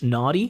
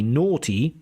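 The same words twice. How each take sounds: First: The first vowel is an open American ah sound. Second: The first vowel is a rounded aw sound. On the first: "or in American English" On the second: "it should be naughty with the O"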